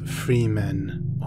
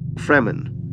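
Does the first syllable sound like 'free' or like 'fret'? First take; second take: free; fret. First: The first vowel is long, as in 'free'. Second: The first vowel is short, as in 'fret'. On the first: The speaker calls it wrong. "not Freemen or Freeman" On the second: The speaker calls it right. "It is pronounced Fremen"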